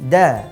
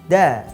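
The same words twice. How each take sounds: Both takes have the same delivery.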